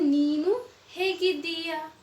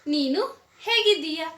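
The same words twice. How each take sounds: First: It is said slowly. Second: It is said at full speed.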